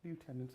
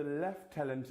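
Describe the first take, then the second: First: Lieutenant said loo-TEN-ant; Lieutenant as loo-tenant, American style; soft aside, Lieutenant as loo-tenant; American pronunciation. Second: Lieutenant said lef-TEN-ant; Lieutenant as lef-tenant, British style; Lieutenant with an f sound, lef-tenant; British pronunciation. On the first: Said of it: "again, up to you". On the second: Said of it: "Would you say Lieutenant and Lieutenant?". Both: Shown as a demonstration.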